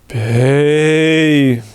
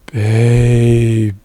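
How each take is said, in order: First: It is said hard and forcefully. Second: It is said softly with an easy onset.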